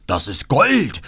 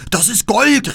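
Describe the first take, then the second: First: Gierig und etwas lauter, in fremder Räuberstimme; „Gold“ mit fallendem Ton gierig betonen; gierige Räuber. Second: Viel höher und lauter, „Gold“ gierig hinausgeschrien; Räuberschrei. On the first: (Räuber entdecken die Kutsche: gieriger, fremder Ausruf) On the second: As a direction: den Ruf steigern, bis „Gold“ gellt. (Räuber stürzen hervor: gieriger, hoher Schrei) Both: Acted. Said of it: "riefen sie und stürzten hervor".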